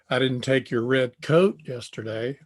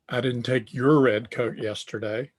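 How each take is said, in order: First: The stress falls on the word coat. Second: The stress falls on the word your. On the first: Something other than a coat was taken. "I took a sweatshirt" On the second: The coat taken belonged to someone else. "So the inflection there is on your"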